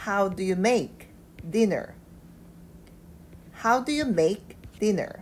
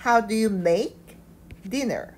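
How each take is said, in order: First: Very slow, even reading; slow repeat. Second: How hit first, rising; stress on how. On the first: Teacher rereading slowly for learners. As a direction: read it again slowly, word by word. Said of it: "자, 다시 읽어보면". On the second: Teacher stressing How for students. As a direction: punch How at the start. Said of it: "이 단어의 강세를 두고". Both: Shown as a demonstration.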